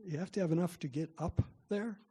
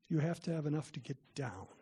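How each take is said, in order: First: "up" lifted on a rising, unfinished tune; stress on UP. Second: "down" landed with a final falling tune; stress on DOWN. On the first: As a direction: set up the contrast, rising on "up". Climber's warning contrasting up with down. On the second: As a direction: answer the contrast, dropping firmly onto "down". Second half of the up-down warning. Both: Retold or imitated.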